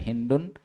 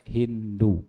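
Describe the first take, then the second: First: The name ends with a final n sound. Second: The name ends on a plain vowel. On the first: The name is read with tanwin. "boleh dibaca Hindun" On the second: The name is read without tanwin.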